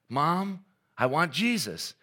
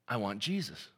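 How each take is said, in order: First: It is said louder and more insistently. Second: It is said calmly at normal volume.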